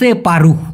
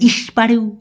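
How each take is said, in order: First: The word begins with a 'se' sound. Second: The word begins with an 'is' sound. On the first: The speaker calls it right. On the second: The speaker calls it wrong.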